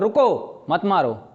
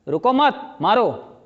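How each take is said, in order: First: The pause comes right after 'ruko'. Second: The pause comes right after 'mat'.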